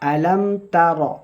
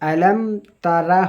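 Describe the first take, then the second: First: The last word ends with a bare 'r' consonant. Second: The last word ends with an open 'ra' vowel. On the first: The speaker calls it right. "র" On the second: The speaker calls it wrong. "Alam তারা হবে না, এটা রা হয় না"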